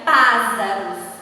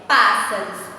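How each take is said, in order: First: The middle consonant is a different sound. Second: The middle consonant is a plain s sound. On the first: "Só mudaria se aí, né, nesse pássaros, viesse só um S" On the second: "Mas como temos dois S, então o som continua o mesmo"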